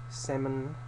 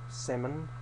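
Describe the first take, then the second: No difference in how they are said.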